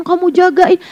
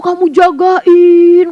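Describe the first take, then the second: First: Said in the usual way. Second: Jagain drawn out slowly and pressed; "jagain" stretched, heavy; stress on jagain. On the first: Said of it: "plain repeat". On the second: Shown as a demonstration. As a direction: lean on "kamu jagain" slowly. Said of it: "emphatic repeat".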